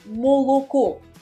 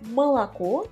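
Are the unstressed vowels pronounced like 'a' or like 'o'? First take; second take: o; a. First: Every vowel is pronounced as a full o. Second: The unstressed o vowels sound like a. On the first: This is how northern dialect speakers say it. "dans le dialecte du Nord, on va prononcer moloko, en gardant soigneusement la prononciation de toutes les voyelles O" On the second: This is the official standard pronunciation. "selon la prononciation officielle"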